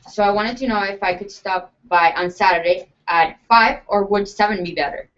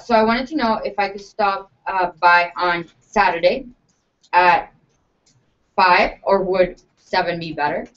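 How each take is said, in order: First: It is said confidently, without hesitation. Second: It is said hesitantly, with fillers.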